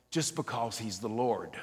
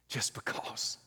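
First: Said in the usual way. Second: Breathy whispered echo, slow; soft whispered repeat. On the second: Shown as a demonstration. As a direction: whisper it back to yourself.

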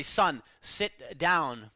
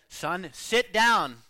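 First: Slow, firm father's command; a stern dad slowly telling his son to sit; more sternly. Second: Slow, firm command with more weight; the father's second, harder warning; a father repeating the order, slow and firmer; sterner still. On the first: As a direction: lay down the law, word by word. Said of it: "said more sternly". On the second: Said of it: "Then the father said". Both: Retold or imitated.

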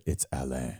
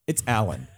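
First: Low, hushed correction, "Alain" said the French way; French-style Alain. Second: "Alan" said the English way, as it is written; anglicised Alan. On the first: Retold or imitated. French guest correcting the driver while gripping their hand, low French "Alain". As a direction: imitate a quiet, firm correction on French "Alain". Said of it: "held on very tightly and said".

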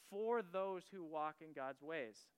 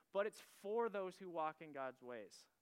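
First: Slow and weighty, leaning on "for those who walk in God's ways"; emphasized, slow. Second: Said in the usual way. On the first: Shown as a demonstration. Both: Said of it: "I really wanna emphasize that".

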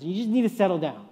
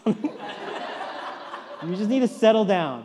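First: Said in the usual way. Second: Slow, drawn-out words broken by laughter; laughing through it. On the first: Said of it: "I said". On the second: Retold or imitated. Dad retelling calming his son, laughing slowly. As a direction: chuckle while telling the kid to calm down. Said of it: "And I was like".

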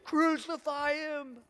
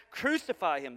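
First: High, drawn-out cry of a baying crowd; pitched-up, slow crowd chant for blood; bloodthirsty mob yell. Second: Said in the usual way. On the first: Acted. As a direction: imitate a screaming mob, stretching out the words. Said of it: "screaming at the top of their lungs". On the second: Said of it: "they shouted back".

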